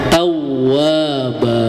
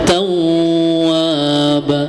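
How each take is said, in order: First: The doubled w is only briefly pressed. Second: The doubled w is merged and held two counts. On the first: "jangan diidghamkan, hanya ditekan saja" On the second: "Kalau diidghamkan beda lagi, dua harokat jatuhnya"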